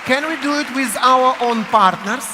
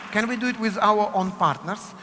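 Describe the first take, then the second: First: Called out over the room, much louder; announcing to everyone, loud and rising; loud call to the class. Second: Said in the usual way. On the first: Real, not acted. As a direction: call out to the whole room to pair up.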